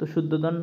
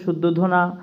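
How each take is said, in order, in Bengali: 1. নামটি ব্যঞ্জনবর্ণ 'n' দিয়ে শেষ হয়েছে। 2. নামটির শেষে একটি 'a' স্বরধ্বনি আছে। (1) "শুদ্ধোধন বললেও তোমরা হবে" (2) "শুদ্ধোধনা এমন উচ্চারণ হয়, রামায়ণা এমন আর কি"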